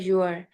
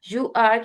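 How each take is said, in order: First: The words merge into one shortened word. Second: Both words are said fully and separately. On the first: "दो words को मिला के एक word बना देते हैं" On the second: "की बजाय"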